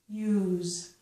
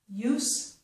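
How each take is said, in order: First: The word ends with a z sound. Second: The word ends with an s sound.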